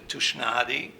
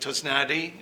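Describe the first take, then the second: First: The surname is said in the original Hungarian way. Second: The surname is said in an anglicized way. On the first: This is the original form used in the home country. "originally in Hungary, uh, we pronounce the S sound as an S sound" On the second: This form is easier for people in the new country. "I pronounce it Tosnadi um, here"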